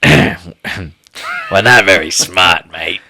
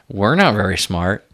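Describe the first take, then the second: First: It is said in a put-on villain voice. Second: It is said in a natural voice.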